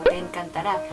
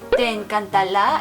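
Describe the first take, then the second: First: The last consonant is said as an R. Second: The last consonant is said as an L. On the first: It is the standard pronunciation. The speaker calls it right. "en vez de pronunciarlo como" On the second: It imitates a speaker who cannot say R. The speaker calls it wrong. "en chino no existe la R y pronuncian"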